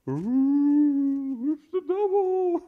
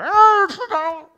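First: It is said a little louder. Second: It is said very loudly.

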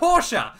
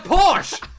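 First: The word is said with two syllables. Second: The word is said with one syllable. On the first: The speaker calls it wrong. "not a Porsche. ... it's a longer word" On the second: The speaker calls it right. "It's a Porsche"

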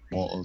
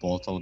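First: The middle t is a glottal stop. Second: The middle t is a clear t sound.

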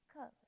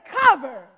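First: It is said weakly, without conviction. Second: It is said strongly, with conviction.

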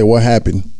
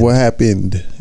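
First: The final -ed sound is dropped. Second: The final -ed sound is pronounced. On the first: The speaker calls it wrong. "No ed" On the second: The speaker calls it right. "What happened is the fucking word, bro. Please say that right"

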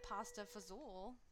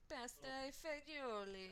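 First: It is said in clipped Italian-American style. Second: It is said in full Italian style, with oomph. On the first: "Americanized Italian version from like the Italians in America" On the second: "if you were saying it in Italian"

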